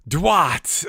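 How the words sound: It is said in a strange, theatrical accent. "he just had this weird, like, accent about him"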